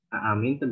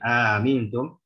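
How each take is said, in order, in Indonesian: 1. Kedua hamzah diucapkan penuh dan jelas. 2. Hamzah kedua dilemahkan dan tidak terucap jelas. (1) "kalau kita nggak jelaskan tahqiqul hamzah, tahqiqul hamzatain" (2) "mengarah kepada lahan lahan tapi lahan kopi yang mengarah kepada perubahan riwayat"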